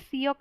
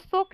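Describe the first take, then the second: First: The vowel starts with a y glide. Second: The vowel sounds like a plain o. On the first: "सियोक नहीं है" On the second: "सोक नहीं है"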